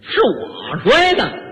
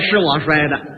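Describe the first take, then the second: First: It is said in an indignant, mocking tone. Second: It is said as a plain, sincere admission.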